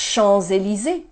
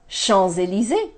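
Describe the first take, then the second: No difference in how they are said.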